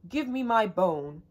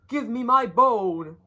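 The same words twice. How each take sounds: First: It is said a bit louder. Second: It is said loudest of all.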